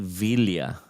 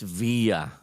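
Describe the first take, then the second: First: The double L is said with an L sound. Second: The double L is said with a Y sound. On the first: This is how it is said locally. "We say Villa. We say uh, all with the double L's" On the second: This is how it is said in Spanish. "in Spanish, ... it's via"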